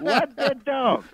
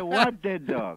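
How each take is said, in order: First: High, drawn-out baffled question; exaggerated disbelief. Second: Mock-baffled question; feigned ignorance. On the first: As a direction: play innocent in a high, stretched voice. Repeats the feigned ignorance, bigger. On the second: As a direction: play innocent, over the laughter. Feigned ignorance about the dead dog.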